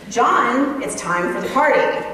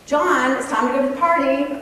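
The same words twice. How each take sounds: First: Firmer parent call, the name punched; lightly acted insistent parent, name pitched up; second-level parenting voice. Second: Lightly voiced parent calling, higher and brisk; a touch of sing-out to a child; normal parenting voice. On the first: Parent calling son a second time, firmer parenting voice. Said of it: "in your second level parenting voice". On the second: Parent calling son to leave for party, normal parenting voice. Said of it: "in your normal parenting voice".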